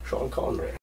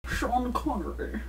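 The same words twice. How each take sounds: First: Whispered Scottish Connery; Sean Connery accent. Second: Slow, quieter Scottish Connery; Sean Connery accent. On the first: Shown as a demonstration. Coach cues Connery, Scottish accent whispered. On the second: Acted. Host answers in Connery's Scottish accent, slowly. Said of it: "already got this one".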